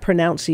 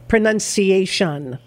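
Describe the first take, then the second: First: The second syllable sounds like 'noun'. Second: The second syllable sounds like 'nun'. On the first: The speaker calls it wrong. "Not pronunciation" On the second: The speaker calls it right. "It's that sneaky dropping of the O from the word that's confusing"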